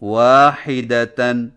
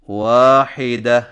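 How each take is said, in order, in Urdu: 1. اس لفظ کے آخر میں تن کی آواز ہے۔ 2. اس لفظ کے آخر میں خاموش ہ کی آواز ہے۔ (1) "جب آخری حرف گولتا ہو" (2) "جزم والی ہا سے بدل کر وقف کریں"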